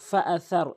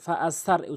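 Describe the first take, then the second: First: The middle consonant is a th sound. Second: The middle consonant is a plain s. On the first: The speaker calls it right. "এই সার উচ্চারণ করতে হবে।" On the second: The speaker calls it wrong. "সিনের উচ্চারণ করে।"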